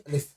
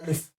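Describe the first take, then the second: First: The second syllable has a short vowel. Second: The second syllable has a short vowel.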